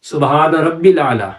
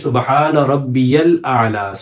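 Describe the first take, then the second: First: There is no y sound after rabbi. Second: A y sound is heard after rabbi. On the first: The speaker calls it wrong. "कैसे पढ़ते हैं" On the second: The speaker calls it right. "हालांकि"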